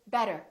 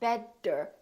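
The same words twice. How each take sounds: First: The middle consonant sounds like a quick D. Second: The middle consonant is a strong D. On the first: The speaker calls it right. "we say better" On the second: The speaker calls it wrong. "it's not a really strong D. It's not better"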